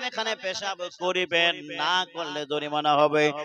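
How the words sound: The pause comes right before the word 'na'.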